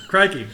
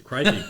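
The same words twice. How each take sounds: First: High, loud Aussie crikey; Australian accent. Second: Aussie exclamation, louder; Australian accent. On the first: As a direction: push the Australian accent harder. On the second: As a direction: toss out a quick Aussie crikey. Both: Shown as a demonstration. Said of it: "give us your best Australian accent".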